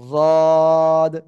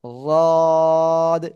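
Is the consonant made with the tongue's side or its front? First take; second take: side; side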